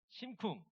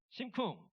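No difference in how they are said.

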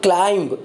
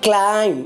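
First: The word ends with an audible b sound. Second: The word ends in m with no b sound. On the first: The speaker calls it wrong. "not climb" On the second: The speaker calls it right. "This is climb, B is silent letter"

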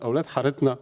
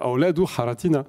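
First: The title is said with spoken dialect pronunciation. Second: The title is said with full classical pronunciation. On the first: "le dit dans sa forme dialectale" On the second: "si on le lit correctement dans l'arabe... littéral"

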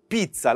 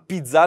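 First: The word is said with an Italian-style pronunciation. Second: The word is said with a French-style pronunciation. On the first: The speaker calls it right. "mais c'est pizza" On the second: The speaker calls it wrong. "c'est pas pizza"

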